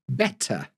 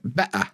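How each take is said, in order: First: The middle T is pronounced clearly. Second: The middle T becomes a glottal stop. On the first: "I wouldn't say better" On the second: "glottal stop is where we don't pronounce the T"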